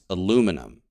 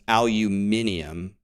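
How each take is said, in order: First: The word is said with four syllables. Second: The word is said with five syllables. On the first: This is the speaker's own way of saying it. "It's aluminum" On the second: This is the British way of saying it. "the U K says aluminium"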